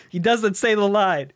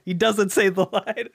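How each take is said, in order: First: Said in the usual way. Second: Laughing through the words. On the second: Real, not acted. Telling the bait and switch joke, laughing. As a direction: crack up while saying it. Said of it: "repeated laughing".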